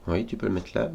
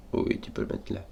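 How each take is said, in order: First: Said in the usual way. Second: Fading to a whisper. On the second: Shown as a demonstration. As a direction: breathe it out almost silently. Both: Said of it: "Non, tu peux pas le mettre là".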